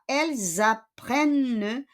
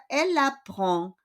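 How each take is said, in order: First: "elles apprennent" with Z liaison and sounded N; teacher's plural "elles apprennent" for contrast; plural form. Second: "elle apprend" with no Z, nasal final vowel; teacher's singular "elle apprend" for contrast; singular form. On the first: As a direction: say "elles apprennent" as elle-zapprenne. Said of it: "ayun ay pluriel". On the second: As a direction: say "elle apprend" linked by L, D silent. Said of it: "Pag doon sa elle apprend". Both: Shown as a demonstration.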